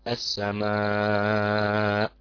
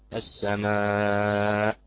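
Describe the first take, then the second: First: The long vowel is held for five counts. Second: The long vowel is held for four counts. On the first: "5 حركات" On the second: "بالتوسط"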